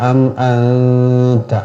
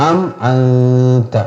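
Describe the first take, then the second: Both takes have the same delivery.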